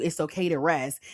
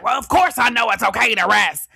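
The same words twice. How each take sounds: First: Said in the usual way. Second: Loud, higher indignant comeback; mock defensive retort. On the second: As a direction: snap back as the offended workaholic. Acts defensive workaholic's reply.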